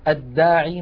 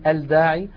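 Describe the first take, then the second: First: The L merges into the doubled next consonant. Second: The L is pronounced clearly before the consonant. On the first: The speaker calls it right. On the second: The speaker calls it wrong.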